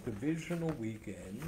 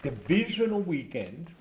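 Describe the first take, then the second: First: Said in the usual way. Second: Higher, louder sportscast billing; emphatic announcement. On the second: Real, not acted. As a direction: announce DIVISIONAL WEEKEND with punch. Announces the round, then repeats it.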